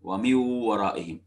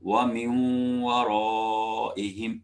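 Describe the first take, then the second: First: The n merges into w without nasal sound. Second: The n merges into w with nasal sound. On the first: The speaker calls it wrong. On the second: The speaker calls it right.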